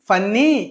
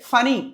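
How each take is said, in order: First: The middle n sound is long and doubled. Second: The middle n sound is short and single. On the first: The speaker calls it wrong. "ఫన్నీ కాదు" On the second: The speaker calls it right. "ఒకటే పలకాలి"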